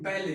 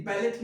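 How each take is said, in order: First: बैले ending on an open "ay", no t; silent T. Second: बैलेट with the final "t" sounded; wrong pronunciation. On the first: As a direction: say बैले as "bal-lay", falling at the end. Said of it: "टी को silent करते हैं". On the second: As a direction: say बैलेट as "bal-let", closing on t. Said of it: "बैलेट नहीं". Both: Shown as a demonstration.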